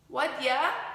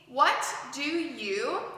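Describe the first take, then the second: First: The words blend into one reduced form. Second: Each word is said separately and fully. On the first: "to make what dia" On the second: "what do you combines to make"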